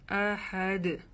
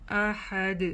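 The two takes are said the same way.

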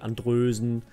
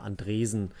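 First: The second vowel sounds like a rounded 'ö'. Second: The second vowel sounds like a plain 'e'. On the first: This is the Norwegian way of saying it. "aber in Norwegen sagen die Andrösen" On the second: This is the local German way of saying it. "Der Hannoveraner Andresen"

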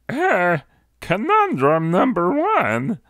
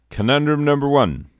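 First: It is said in a special put-on voice. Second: It is said in a plain everyday voice. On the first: The speaker calls it right. "I have to do it in the right voice" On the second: The speaker calls it wrong. "Wait, hold up. I have to do it correctly"

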